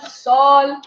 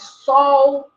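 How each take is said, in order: First: The final L is a clear tongue-behind-teeth L. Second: The final L is pronounced like a U vowel. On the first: This is how other languages keep it. "permanecem esse L, L atrás do dente" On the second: This is how Brazilians say it. "o som do L em final de sílaba, a gente pronuncia U"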